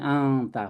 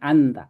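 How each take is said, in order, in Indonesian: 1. Huruf n diucapkan sengau seperti bunyi ng. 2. Huruf n diucapkan sebagai n yang jelas. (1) "Anta ini di depan tadi ang karena tak ya. Jadi anta" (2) "bukan anta"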